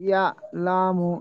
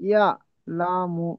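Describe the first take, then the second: The two takes are said the same way.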